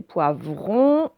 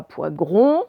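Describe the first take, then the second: First: Poivron slowly, clear vr in the second syllable; correct vr. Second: Poivron mispronounced as "poigron"; wrong gr. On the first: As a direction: draw out poivron with distinct v. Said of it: "c'est poivron". (poivron lentement, « vr » bien articulé) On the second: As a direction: say poivron with g replacing v. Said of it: "Ce n'est pas poivron". (poivron prononcé « poigron », g au lieu du v) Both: Shown as a demonstration.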